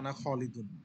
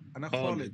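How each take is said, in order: First: The name ends with a full -un sound. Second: The name ends clipped, without the -un sound. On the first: This is the form taught for learning the rules. "আমি এখন আপনাদেরকে পড়াচ্ছি আনা খালিদুন" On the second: This is how fluent speakers actually say it. "আনা খালিদুন বলবেন না, বলবেন যে"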